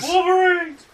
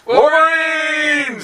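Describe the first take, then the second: First: Sharp high yell, louder; battle cry shout. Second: Long drawn-out high yell; battle cry shout. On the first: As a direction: shout it back even higher. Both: Pretend.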